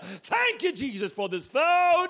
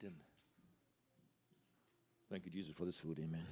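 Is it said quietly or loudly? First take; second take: loudly; quietly. First: It is said loudly and showily. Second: It is said quietly and plainly.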